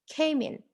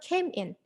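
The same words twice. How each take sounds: First: The two words are linked with no pause. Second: The two words are said with a pause. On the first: The speaker calls it right. "So there is no pause there" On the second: The speaker calls it wrong. "So it's not came in"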